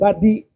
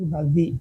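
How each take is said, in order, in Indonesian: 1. Kata itu diucapkan dengan bunyi d. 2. Kata itu diucapkan dengan bunyi z. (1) "Bukan badi" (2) "tapi bazi"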